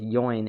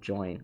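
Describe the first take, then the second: First: The word begins with a Y sound. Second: The word begins with a J sound. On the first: "they pronounce it like a Y" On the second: "instead of"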